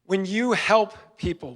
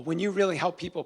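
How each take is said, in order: First: Said in the usual way. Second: Really leaned on, the rest of the line easy; stress on really. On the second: Shown as a demonstration. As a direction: hit the word really to build the point.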